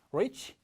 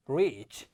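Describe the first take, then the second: First: Reach said as rich; short i in reach, tune up; short vowel. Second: Reach as REECH, falling; long vowel. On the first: Teacher contrasting vowels, reach said as short rich. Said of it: "마찬가지로 팔 번도". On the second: Teacher contrasting vowels, reach with long ee. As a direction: draw out the ee in reach. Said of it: "소리가 길어져야 돼요". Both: Shown as a demonstration.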